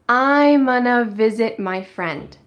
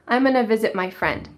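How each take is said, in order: First: The sentence is said slowly. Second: The sentence is said quickly. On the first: "let's say it slowly" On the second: "Let's say it fast"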